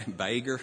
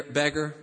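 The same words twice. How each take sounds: First: "beggar" as "BAY-ger" in an Alabama accent. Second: Said in the usual way. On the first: Real, not acted. Preacher stumbling over a word in reading, Alabama accent on "beggar". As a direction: Alabama drawl on "beggar", first vowel stretched to "bay". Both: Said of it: "Yeah, I'm from Alabama".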